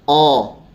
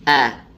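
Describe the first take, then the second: First: The vowel is thick and sounds like o. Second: The vowel is thin and sounds like a. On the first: The speaker calls it wrong. "Nggak boleh kita bacanya O ya" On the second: The speaker calls it right. "Yang benar adalah A"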